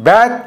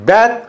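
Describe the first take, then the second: The two takes are said the same way.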